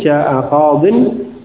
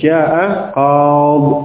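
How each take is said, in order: First: The last word ends in 'bin' with a final n. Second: The last word ends bare on 'b' without a vowel. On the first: The phrase is read on without stopping. The speaker calls it wrong. "tidak dibaca kasrah tanwin" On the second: The reader stops at the end of the phrase. The speaker calls it right. "kalau waqaf dia menjadi"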